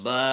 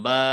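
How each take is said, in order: The two takes are said the same way.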